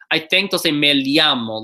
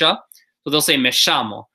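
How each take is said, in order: First: The 'll' sounds like an L followed by Y. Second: The 'll' sounds like an English SH. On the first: "like an L Y" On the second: "a couple places will also say a sh"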